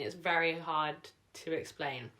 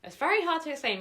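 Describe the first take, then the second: First: Said in the usual way. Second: Much higher, louder exasperated repeat. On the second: Real, not acted. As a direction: throw up your hands: it's hard to explain. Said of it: "Maybe I'll have to explain it really fast".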